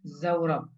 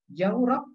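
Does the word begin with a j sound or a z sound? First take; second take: z sound; j sound. First: The word begins with a z sound. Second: The word begins with a j sound. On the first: "atau menggunakan za" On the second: "apakah menggunakan jim"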